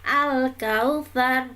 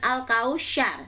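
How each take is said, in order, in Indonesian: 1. Konsonan sebelum vokal terakhir adalah th. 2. Konsonan sebelum vokal terakhir adalah sh. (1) "ada kata kautsar di situ sa ya" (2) "bukan al-kausyar"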